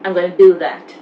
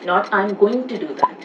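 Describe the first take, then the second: First: 'Going to' is reduced to 'gonna'. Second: 'Going to' is said in full. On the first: The speaker calls it right. "Going to becomes gonna" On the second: The speaker calls it wrong.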